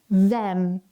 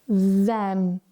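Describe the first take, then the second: The two takes are said the same way.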